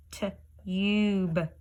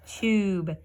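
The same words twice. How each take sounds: First: Tube stretched very slowly; slow drawn-out tube. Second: Said in the usual way. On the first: Shown as a demonstration. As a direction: draw out tube. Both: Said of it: "That E changed that from an uh to a U".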